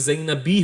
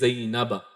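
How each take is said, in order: First: The name ends with the sound 'i'. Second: The name ends with the sound 'a'. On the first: The speaker calls it wrong. "ना ही ज़ैनबी होगा" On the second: The speaker calls it right. "बल्कि ज़ैनबा"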